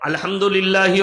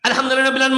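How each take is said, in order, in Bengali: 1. এটি ধীরে ও শান্তভাবে তিলাওয়াত করা হয়। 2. এটি খুব দ্রুত ও তাড়াহুড়ো করে তিলাওয়াত করা হয়। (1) "যদি ইমাম সাহেব একটু সোলো পড়ে" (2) "যেন ফেরেশতারাও খুঁজে না পায় মাল পড়ছে কোথায়"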